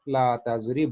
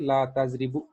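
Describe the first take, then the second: First: The verb ends on a bare consonant. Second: The verb ends with a short u vowel. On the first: The speaker calls it right. "बल्कि ला तज़रिब" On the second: The speaker calls it wrong. "ला तज़रिबु नहीं कहेंगे"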